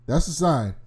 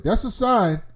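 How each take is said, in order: First: Said in the usual way. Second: Excited reaction. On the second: Retold or imitated. Reacting to threat.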